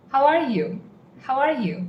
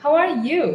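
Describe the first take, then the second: First: "are" stressed with falling tune. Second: "you" stressed with a high rise; stress on you, rising. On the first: Teacher showing one English way to ask. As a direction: lean on "are", let it fall. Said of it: "First is". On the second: Teacher showing the other English way to ask. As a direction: lift and hit "you" at the end. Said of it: "And the other way is". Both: Shown as a demonstration.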